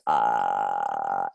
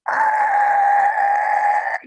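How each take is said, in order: First: A steady, low, pulsating vocal fry. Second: A higher, faster fry scream.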